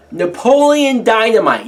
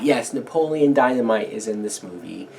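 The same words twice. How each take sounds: First: "Napoleon Dynamite" said higher and louder, punched hard; emphatic name reveal. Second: Said in the usual way. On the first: Shown as a demonstration. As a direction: announce "Napoleon Dynamite" like a big reveal, high and loud.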